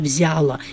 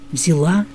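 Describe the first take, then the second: First: The stress is on the first syllable. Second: The stress is on the last syllable. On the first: The speaker calls it wrong. "обязательно ударение будет на предпоследнем слоге" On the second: The speaker calls it right. "по-русски это невозможно"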